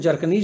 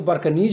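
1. यह नाम J ध्वनि से शुरू होता है। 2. यह नाम B ध्वनि से शुरू होता है। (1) "जे से लेते हैं तो जर्कनीज होता है" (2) "कई लोग बी से उच्चारण करते हैं तो बर्कनीज हो जाता है"

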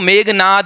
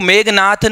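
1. नाम 'd' की आवाज़ पर खत्म होता है। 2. नाम महाप्राण 't' की आवाज़ पर खत्म होता है। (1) "वो मेघनाद है" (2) "वो मेघनाथ नहीं"

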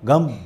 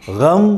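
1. यह सादी, कठोर g ध्वनि से शुरू होता है। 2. यह गले वाली, घर्षण वाली gh ध्वनि से शुरू होता है। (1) "आप बम गम बोलते हैं" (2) "आप गम नहीं बोल पाते हैं"

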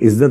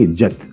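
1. यह शब्द मानक उच्चारण में कहा गया है। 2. यह शब्द उत्तर प्रदेश के उच्चारण में कहा गया है।

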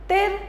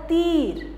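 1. इस शब्द में स्वर छोटा है। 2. इस शब्द में स्वर लंबा है। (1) "तिर या तीर" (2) "हम इसको बुलाते हैं तीर"

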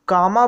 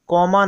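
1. पहला स्वर 'ah' जैसा सुनाई देता है। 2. पहला स्वर 'aw' जैसा सुनाई देता है। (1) "कामा बोला जाता है" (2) "कॉमा नहीं"

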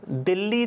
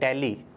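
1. पहला स्वर 'bit' के 'i' जैसा है। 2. पहला स्वर 'bet' के 'e' जैसा है। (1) "दिल्ली तो बोलते हैं हिंदी में" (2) "लेकिन इंग्लिश में बोला जाता है दिल्ली"

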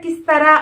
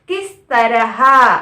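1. త్వరగా చెప్పినప్పుడు 'h' శబ్దం వదిలేస్తారు. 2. నెమ్మదిగా చెప్పినప్పుడు 'h' శబ్దం పలుకుతారు. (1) "మనం తొందరగా మాట్లాడేటప్పుడు అంటే కిస్తరా అని పలుకుతాం" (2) "కిస్ తరహా అని అంటారు ఈ పదాన్ని హిందీలో"

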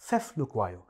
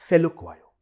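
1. पहले अक्षर के बाद एक अतिरिक्त ध्वनि आती है। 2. पहला अक्षर सीधे 'lukwayo' से जुड़ जाता है। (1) "आप कहिए" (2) "नॉट"

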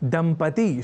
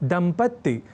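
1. बीच की 't' ध्वनि एकल है। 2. बीच की 't' ध्वनि दोहरी है। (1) "जब भी हम दंपति शब्द का प्रयोग करें" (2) "लोग दंपत्ति या दंपत्ति जैसे प्रयोग कर दिया करते हैं"

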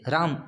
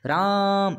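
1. नाम छोटा बोला जाता है, खींचे बिना। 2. नाम का स्वर खींचकर लंबा बोला जाता है। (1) "ऐसे राम ऐसे नहीं बोलेंगे" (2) "राम ऐसे थोड़ा खींच के उसको बोलते हैं"

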